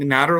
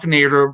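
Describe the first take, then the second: First: The first vowel sounds like the one in 'ladder'. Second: The first vowel sounds like the one in 'later'. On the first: The speaker calls it right. "like ladder" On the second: The speaker calls it wrong. "like Ralph Nader, but he said it wrong"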